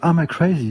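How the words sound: It is said with an American or English accent.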